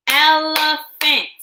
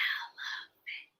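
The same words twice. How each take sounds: First: Broken into syllables. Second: Whispered syllables. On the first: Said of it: "Break words in two parts with me". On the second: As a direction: whisper el, e, phant very softly. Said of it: "Whisper with me". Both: Shown as a demonstration.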